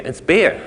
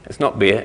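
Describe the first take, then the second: First: "beer" stressed, pitched high; imitating a teacher insisting on "beer", voice jumping up; teacher's correction. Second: Said in the usual way. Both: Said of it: "like my teachers would say".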